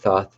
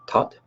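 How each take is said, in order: First: The name ends with a th sound. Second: The name ends with a plain t sound. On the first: This is the more common pronunciation. "Thoth is a more common cultural pronunciation" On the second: This is the traditional pronunciation. "traditionally pronounced Tot"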